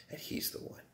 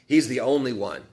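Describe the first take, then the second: First: Whispered. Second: Said in the usual way. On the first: Real, not acted.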